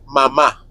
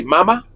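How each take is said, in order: First: "mama" stressed on the final syllable, ma-MA; stress on last syllable. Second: "mama" stressed on the first syllable, MA-ma. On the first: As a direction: land on the second MA of "mama". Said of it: "tittle is at the end". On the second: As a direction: hit the first MA of "mama", let the second drop. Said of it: "put the accent on the first". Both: Shown as a demonstration.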